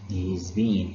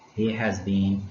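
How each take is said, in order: First: The verb has is contracted to s. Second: The verb has is said in full. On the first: "can be said in another way, which is he's been"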